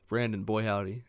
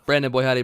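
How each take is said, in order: First: It is said at a normal, slower pace. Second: It is said quickly, rushed.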